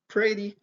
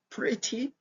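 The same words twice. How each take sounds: First: It is said in an American accent. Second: It is said in a British accent. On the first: "on est donc sur l'accent américain" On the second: "c'est accent britannique"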